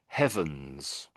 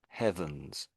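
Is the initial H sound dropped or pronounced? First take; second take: pronounced; pronounced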